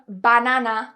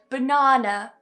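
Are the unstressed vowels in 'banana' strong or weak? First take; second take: strong; weak. First: The unstressed vowels are full, strong 'ah' sounds. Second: The unstressed vowels are weak schwas. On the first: The speaker calls it wrong. "I'm not saying banana, which a lot of Spanish speakers would do" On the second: The speaker calls it right. "another great word to show this"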